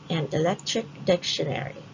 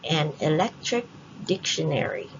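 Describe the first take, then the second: The two takes are said the same way.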